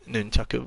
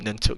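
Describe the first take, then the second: First: The word is said with three syllables. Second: The word is said with two syllables. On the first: The speaker calls it right. "I know it's nunchaku" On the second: The speaker calls it wrong. "I know that's not the correct way to pronounce that"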